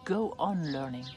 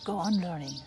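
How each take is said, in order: First: It is said directly with big, forceful energy. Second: It is said softly and warmly, encouraging. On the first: A demanding teacher is pushing you. "this teacher speaks very directly to you" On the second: A caring friend is encouraging you. "like your very dear and very close friend"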